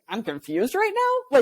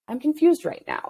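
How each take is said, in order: First: It is said as an incredulous question. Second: It is said as a plain statement.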